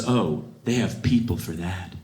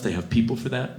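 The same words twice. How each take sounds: First: Lower, slow entitled brush-off; snooty dismissal. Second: Said in the usual way. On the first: Retold or imitated. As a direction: wave it away like a snob. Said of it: "She says". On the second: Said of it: "If you ever say that".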